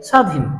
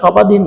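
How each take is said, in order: First: No b sound follows the first consonant. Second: A b sound follows the first consonant. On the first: The speaker calls it right. "হবে স্বাধীন" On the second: The speaker calls it wrong. "সেটির নাম সবাধীন না"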